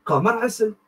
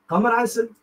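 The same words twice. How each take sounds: The two takes are said the same way.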